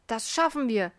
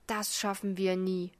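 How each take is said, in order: First: Said in the usual way. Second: Panting despair. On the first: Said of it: "sagte der andere". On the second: A narrator's reading. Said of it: "schnaufte der Mann".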